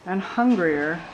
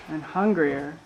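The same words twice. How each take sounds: The two takes are said the same way.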